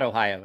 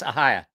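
First: The word begins with an 'oh' sound. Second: The word begins with an 'ah' sound. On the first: The speaker calls it wrong. "It's not Ohio" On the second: The speaker calls it right. "It's Ahia"

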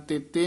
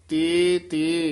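First: The two syllables are run together as one word. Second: The two syllables are said as separate words. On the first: The speaker calls it wrong. "ਤੇਤੇ ਨਹੀਂ ਕਹਿਣਾ" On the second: The speaker calls it right. "ਇਹ ਵੀ ਪਾਠ ਵੱਖਰਾ ਹੀ ਕਰਨਾ ਹੈ"

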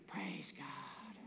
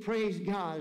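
First: It is said in a whisper. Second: It is said in a louder voice.

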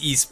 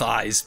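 First: The name sounds like the word east. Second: The name sounds like the word eyes. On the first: This is the official pronunciation. The speaker calls it right. "It is East" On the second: This is a personal habit, not the official pronunciation. The speaker calls it wrong. "but I'm going with Eyes just because"

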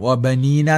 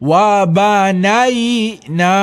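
First: The vowel after 'ban' is a long 'ee'. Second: The vowel after 'ban' is an 'ai' diphthong. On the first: The speaker calls it wrong. "വബനീന എന്നൊക്കെ പറയുന്ന രൂപത്തിൽ ഓതുന്ന നമ്മൾ ശ്രദ്ധിക്കപ്പെട്ടിട്ടുണ്ട്" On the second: The speaker calls it right. "ആ രൂപത്തിൽ തന്നെ കൃത്യമായി എടുത്തുകൊണ്ട് പറയണം"

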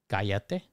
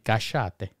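First: The double L sounds like a y. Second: The double L sounds like sh. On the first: "in normal Spanish, it would be callate" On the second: "But Argentinians would say cachate"

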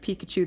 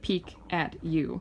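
First: It is said quickly, run together as one word. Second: It is said more slowly, as three separate words. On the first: It names the Pokemon character. "if you say it really fast, it is the Pokemon" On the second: It names the speaker's pony, not the Pokemon. "it's like peek at you"

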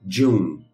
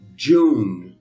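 First: The word is said at normal speed. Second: The word is said slowly. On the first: "a outra normal" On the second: "uma vez devagarinho"

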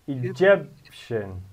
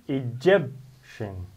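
The two takes are said the same way.

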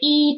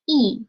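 First: The syllable is said with a high level tone. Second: The syllable is said with a falling tone. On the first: "It will change from the first tone into the fourth tone" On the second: "E will change to fourth tone"

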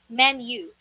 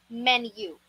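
First: The u is said with a y sound before it. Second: The same.

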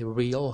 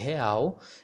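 First: It is pronounced like the English word real. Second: It is pronounced the Brazilian Portuguese way. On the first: The speaker calls it wrong. "You don't say real here" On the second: The speaker calls it right. "We say real"

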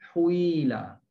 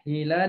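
First: The first vowel is rounded toward u. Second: The first vowel is a plain i sound.

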